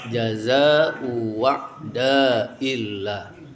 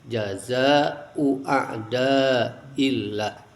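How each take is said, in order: First: The second word begins with a w sound. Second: The second word begins with a clear glottal stop. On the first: "diganti hamzah yang kedua dengan wawu" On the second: "bitahqiqil hamzati saniyati ... ditampakkan"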